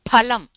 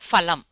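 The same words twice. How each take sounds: First: The word begins with a breathy p sound. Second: The word begins with an f sound. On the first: The speaker calls it right. "this is phalam" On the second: The speaker calls it wrong. "not phalam"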